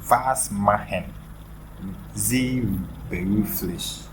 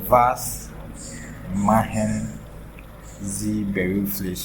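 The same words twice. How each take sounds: First: It is said in a standard German accent. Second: It is said in a southern German accent. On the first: "this is the general way of asking" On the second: "Some Southern German people, maybe they will say it in a different way"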